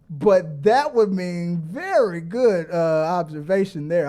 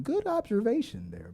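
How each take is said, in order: First: Said in the usual way. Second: A light take on the host's measured praise, a bit higher; lightly voiced host giving a mild compliment; imitating John Campea. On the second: Streamer mimics John Campea praising a viewer, softly. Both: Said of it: "I'll give you a John Campea comment".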